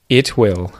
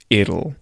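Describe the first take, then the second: First: Two full words with a clear T sound. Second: One contracted word with a D-like T.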